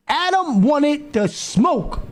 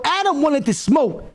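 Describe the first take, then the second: First: Drawn-out, word-by-word verdict; slow, emphatic repeat. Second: Said in the usual way. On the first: Real, not acted. Reactor telling viewers that Adam wanted a fight, slow emphatic repeat. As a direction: stretch it slowly to drive it home.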